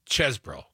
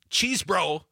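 First: The first syllable has a short 'e' vowel. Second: The first syllable has a long 'ee' vowel. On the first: The speaker calls it right. "it's Chesbro. Put another way, the E, ease, is like dessert" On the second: The speaker calls it wrong. "It's not cheese bro"

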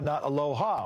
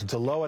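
First: It is said the Hawaiian way. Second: It is said the local Oregon town way. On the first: It is the Hawaiian greeting word. The speaker calls it wrong. "although Aloha is also a nice word" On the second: It names the town in Oregon. The speaker calls it right. "it's Aloha, not Aloha"

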